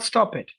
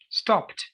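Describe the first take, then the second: First: The ending is an extra syllable, like "stop it". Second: The ending is a plain t with no extra syllable. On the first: The speaker calls it wrong. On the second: The speaker calls it right.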